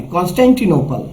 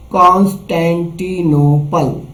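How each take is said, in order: First: Said in the usual way. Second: Constantinople stretched slowly, piece by piece; sounded out slowly. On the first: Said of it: "एक साथ पढ़ना है". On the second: Shown as a demonstration. Teacher breaking a long word for children, slowly. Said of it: "टुकड़े करना है".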